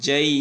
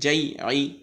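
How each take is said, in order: First: The vowel is stretched, ending on a stopped consonant. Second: The word flows quickly on with its vowel ending. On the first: The reader stops at this word. "যদি আমরা থেমে যাই তাহলে একালিফ টান হবে" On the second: The reading continues without stopping. "যদি আমরা না থামি ... খুব দ্রুত"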